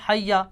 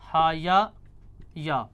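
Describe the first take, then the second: First: The two like consonants are merged into one. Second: The two like consonants are pronounced separately.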